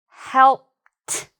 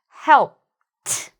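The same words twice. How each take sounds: The two takes are said the same way.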